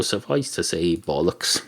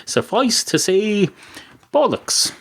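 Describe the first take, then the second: First: Low, soft throwaway delivery of bollocks; quiet understated. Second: Bollocks flung out high; slow suffice to say, then a high bollocks; emphatic verdict. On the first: Host dryly mutters his verdict, low and soft. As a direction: drop the voice right down on bollocks. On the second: Host declares his verdict, slow, then a high bollocks. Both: Shown as a demonstration. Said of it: "That's what it suffices to say".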